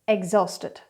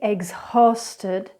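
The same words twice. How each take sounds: First: The H in the middle is not pronounced. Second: The H in the middle is pronounced. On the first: The speaker calls it right. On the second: The speaker calls it wrong. "So incorrectly"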